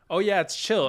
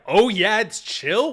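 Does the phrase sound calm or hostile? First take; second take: calm; hostile. First: It is said in a calm, relaxed tone. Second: It is said in an angry, hostile tone. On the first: The writer means it sincerely. "where they're like" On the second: The reader takes it as passive-aggressive. "What the fuck does this dickhead think he's saying?"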